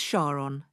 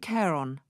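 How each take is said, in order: First: The word begins with an 'sh' sound. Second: The word begins with a 'k' sound. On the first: This form honours the discoverer's wife's nickname. "NASA and most astronomers pronounce it as Charon, in thanks to the man who discovered it" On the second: This is the officially agreed form of the name. "did agree to Charon"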